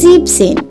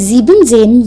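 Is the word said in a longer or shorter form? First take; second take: shorter; longer. First: The word is said in a shortened form. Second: The word is said in a longer, fuller form. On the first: The speaker calls it right. "you say siebzehn" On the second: The speaker calls it wrong. "Instead of saying siebzehn"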